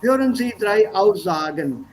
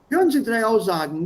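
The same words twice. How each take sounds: First: The -en endings are fully pronounced. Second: The -en endings are reduced and merged. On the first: "There's nothing wrong in your saying" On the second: "wenn wir das so aussprechen wie die Deutschen selbst"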